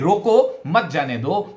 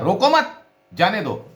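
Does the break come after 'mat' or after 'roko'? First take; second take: after roko; after mat. First: The break comes right after 'roko'. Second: The break comes right after 'mat'. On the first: Stop the person; do not let them go. "मैं आदेश दे रहा हूं कि देखिए ये व्यक्ति अंदर प्रवेश ना कर पाए" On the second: Do not stop the person; let them go. "इस व्यक्ति को उस दिशा में गति करने दी जाए"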